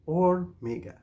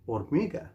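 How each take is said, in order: First: Say-along model. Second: Said in the usual way. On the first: Shown as a demonstration. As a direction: stretch "Hormiga" so learners can join in. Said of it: "Say it with me now". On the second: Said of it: "we say".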